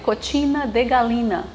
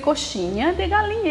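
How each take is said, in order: First: The middle consonant of coxinha sounds like 't'. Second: The middle consonant of coxinha sounds like 'sh'. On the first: A foreign speaker cannot produce the Portuguese sound. The speaker calls it wrong. "ele fazia cotina de galinha" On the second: This is the intended Portuguese word. The speaker calls it right. "para dizer coxinha de galinha"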